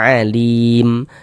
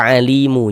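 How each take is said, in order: First: The word stops on a silent final m. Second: The word ends with an added u vowel. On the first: The speaker calls it right. "kita baca alim" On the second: The speaker calls it wrong. "Jangan dibaca alimu"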